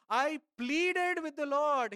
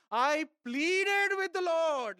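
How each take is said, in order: First: Said in the usual way. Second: Higher, slow, pleading; imploring tone, slow and lifted; pleading, drawn out. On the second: Acted. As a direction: stretch out pleaded like a begging prayer. Sermon, repeating pleading verse.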